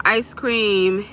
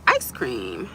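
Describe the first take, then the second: First: Said in the usual way. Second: Low, drawn-from-the-chest comic impression; quick impression, deep and softer; Eddie Murphy. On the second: Shown as a demonstration. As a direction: drop way down into a celebrity impression. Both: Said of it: "Eddie Murphy voice".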